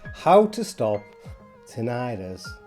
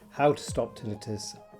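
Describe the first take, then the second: First: It is said in an American accent. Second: It is said in a Yorkshire accent.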